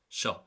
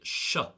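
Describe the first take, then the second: First: The first sound is short and quick. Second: The first sound is held long and drawn out. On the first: "Normally it would just be sh" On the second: "Now I'm elongating it there to make the point"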